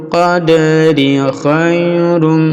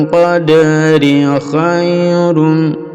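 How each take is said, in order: Both takes have the same delivery.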